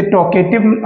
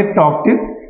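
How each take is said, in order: First: टॉकेटिव with an extra "e" syllable; wrong pronunciation. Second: टॉकटिव in two clean beats, tok-tiv; correct pronunciation. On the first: Teacher showing students the wrong टॉकेटिव, extra syllable. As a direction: say टॉकेटिव the mistaken way. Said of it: "इसे टॉकेटिव आप नहीं पढ़ेंगे". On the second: Teacher giving students the correct टॉकटिव. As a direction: say टॉकटिव the right way. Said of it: "इसे आप पढ़ेंगे टॉकटिव". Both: Shown as a demonstration.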